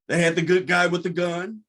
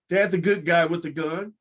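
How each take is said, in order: Both takes have the same delivery.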